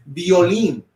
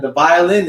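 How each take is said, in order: First: Violín as "bee-oh-LEEN"; Spanish pronunciation. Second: Said in the usual way. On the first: Shown as a demonstration. Teacher translates violin for the class, Spanish pronunciation. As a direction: say "violín" in Spanish, stress on the last syllable. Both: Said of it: "And the violin is violín".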